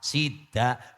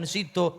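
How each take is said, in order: First: The word ends with an a sound. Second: The word ends with an o sound.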